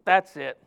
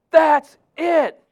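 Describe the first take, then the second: First: Said in the usual way. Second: High, loud "That's it" of frustrated giving up; upset outburst. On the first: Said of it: "And I felt". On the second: Retold or imitated. Preacher retells quitting in front of a Chinese sister, loud fed-up outburst. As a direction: throw up your hands, loud and fed up. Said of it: "And I was so upset".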